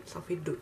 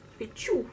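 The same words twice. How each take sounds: First: Said in the usual way. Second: "tchou" as a mock-English "two", pitched up; joke English accent. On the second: Vlogger joking about her bad English, higher mock English accent. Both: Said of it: "Moi et mon accent anglais".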